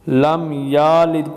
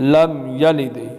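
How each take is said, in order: First: The vowel after 'y' is drawn out long. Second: The vowel after 'y' is kept short. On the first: The speaker calls it wrong. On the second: The speaker calls it right.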